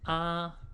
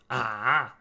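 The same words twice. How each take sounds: First: The pitch stays high and level. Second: The pitch dips low before rising. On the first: It expresses surprise. "The first one is the first tone" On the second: It expresses doubt. "The third one"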